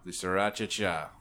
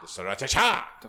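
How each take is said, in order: First: It is said plainly, without much energy. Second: It is said loudly, with lots of energy.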